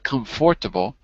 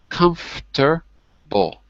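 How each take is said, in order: First: The word is said with four syllables. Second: The word is said with three syllables. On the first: The speaker calls it wrong. "Now you're adding the four. There's no four. It's not comfortable" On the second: The speaker calls it right. "we literally don't say a syllable"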